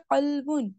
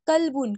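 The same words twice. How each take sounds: First: Heavy throaty first sound in قلبن; full heavy qaf. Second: کلبن as "kalbun" with a light front k; no throat sound starting کلبن; thin k, mispronounced. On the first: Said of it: "اس کا پر پڑا ہے". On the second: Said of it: "اس کو حلق سے آواز کی نہیں نکالتے". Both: Shown as a demonstration.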